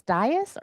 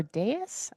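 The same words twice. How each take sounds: First: "dais" said DIE-us, first vowel like "eye"; "dais" opening like the word "die". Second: "dais" said DAY-us, first vowel as in "day"; "dais" opening like the word "day". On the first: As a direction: say "dais" to rhyme with "bias". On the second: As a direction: say "dais" with a long A up front. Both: Shown as a demonstration. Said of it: "don't know how to properly say it".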